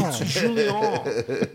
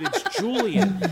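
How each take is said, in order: First: Imitating the brother's French Julien; French accent. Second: It's Julian said with a hard English J, flat English vowels; plain English Julian. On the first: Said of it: "speaking English with a heavy French accent". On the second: Retold or imitated. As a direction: say Julian the plain American way, louder. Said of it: "But I don't say things like that".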